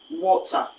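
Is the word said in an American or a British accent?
British. It is said with a British accent. "The right pronunciation is water, using the standard British pronunciation"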